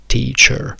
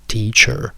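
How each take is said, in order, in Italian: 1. La fine è una schwa seguita da una R. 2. La fine è una schwa seguita da una R.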